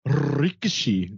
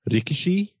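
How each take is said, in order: First: "Rikishi" slow, with a long rolled opening R. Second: Said in the usual way. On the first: Shown as a demonstration. Co-host showing how he geared up too hard, rolled R. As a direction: overdo the trill starting "Rikishi". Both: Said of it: "that I rolled the R".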